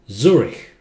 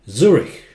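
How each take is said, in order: No difference in how they are said.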